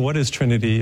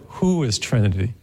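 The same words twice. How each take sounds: First: Said in the usual way. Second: "Who" stressed, question rising at the end. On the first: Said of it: "Rather than saying". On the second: Shown as a demonstration. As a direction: lean on "Who" and lift the question. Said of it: "it's more".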